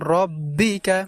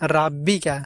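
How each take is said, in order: First: The first vowel is a heavy, rounded 'o'. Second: The first vowel is a thin, open 'a'. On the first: The speaker calls it right. "এখানে আমাদেরকে বলতে হবে রব্বিকা" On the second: The speaker calls it wrong. "আমরা অনেকেই বলে থাকি রাব্বিকা, রা হবে না"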